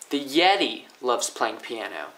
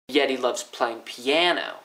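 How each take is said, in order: First: The stress is on Yeti. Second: The stress is on piano.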